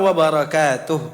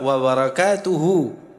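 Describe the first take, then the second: First: The word ends on a consonant, final vowel dropped. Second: The word ends with a final vowel sound. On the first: The speaker is stopping at this word. "Karena berhenti" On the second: This is the full underlying form, as if continuing. "Padahal asalnya apa?"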